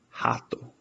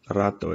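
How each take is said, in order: First: The word begins with an H sound. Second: The word begins with an R sound. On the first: The speaker calls it right. "it becomes an H sound" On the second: The speaker calls it wrong. "it isn't rato"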